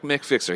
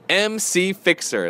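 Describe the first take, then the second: First: MC is spoken as one syllable, Mick. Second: MC is spoken as two separate letters. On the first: The speaker calls it wrong. "not Mick Fixer. He doesn't like the Mick Fixer thing" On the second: The speaker calls it right. "That's right"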